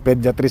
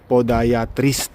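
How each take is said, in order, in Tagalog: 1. Nagsisimula ang salita sa tunog na 'pe'. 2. Nagsisimula ang salita sa tunog na 'po'. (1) "pediatrist ang sinasabi ko eh" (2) "podiatrist yan"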